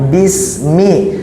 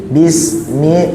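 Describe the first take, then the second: No difference in how they are said.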